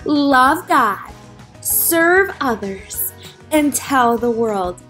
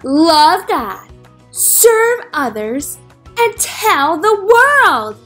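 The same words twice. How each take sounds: First: It is said at normal volume. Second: It is said more loudly.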